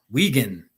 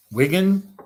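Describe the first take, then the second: First: "Wigan" as WEE-gan, low and falling; long-ee pronunciation. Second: "Wigan" as WIG-an, rhyming with "wiggin"; short-i pronunciation. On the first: Streamer trying out a British town's name, "Wigan" as WEE-gan. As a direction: say "Wigan" with a long ee in the first syllable. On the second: Streamer unsure of a British town's name, "Wigan" as WIG-an. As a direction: try "Wigan" with a short i, tentatively. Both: Shown as a demonstration. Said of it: "I hope I'm pronouncing it right".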